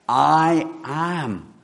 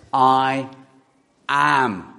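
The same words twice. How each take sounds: First: Said in the usual way. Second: "I" ringing out, long pause before "am"; slow split I am. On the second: Shown as a demonstration. Preacher spells out God's name to the congregation, slow and split. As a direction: let "I" hang, then land "am". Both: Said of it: "It's this".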